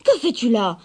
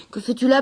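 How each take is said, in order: First: Loud stern question, falling; scolding. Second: Put-on gentle surprised question from the old woodcutter; curious and kind, a bit higher; kindly old man. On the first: Acted. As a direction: reprimand the granddaughter. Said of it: "gronda le vieil homme". (question grondeuse et sévère) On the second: Vieil homme surpris, bienveillant. (voix douce et étonnée du vieil homme)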